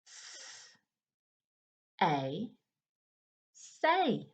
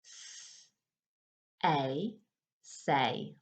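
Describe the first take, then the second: First: S whispered, A, then blend say; sounding out words. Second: S whispered, A, then say lower; sounding out words. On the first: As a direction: hiss the S, then A, then say. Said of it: "sound them out together". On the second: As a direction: hiss the S, then A, then a low say. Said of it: "Let's try it again". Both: Shown as a demonstration.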